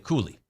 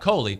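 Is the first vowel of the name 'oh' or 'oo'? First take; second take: oo; oh. First: The first vowel sounds like 'oo'. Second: The first vowel sounds like 'oh'. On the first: The speaker calls it right. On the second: The speaker calls it wrong. "So not Coley"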